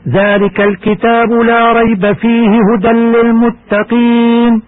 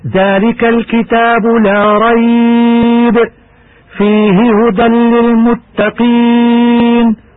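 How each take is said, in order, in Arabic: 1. تُتلى الآية متصلة دون وقف. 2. هناك وقف مباشرة بعد كلمة rayb. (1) "كما يجوز الوصل" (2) "يصح الوقف هكذا"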